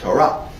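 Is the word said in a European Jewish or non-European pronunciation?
non-European. It is said in a non-European pronunciation. "the right way to say it is"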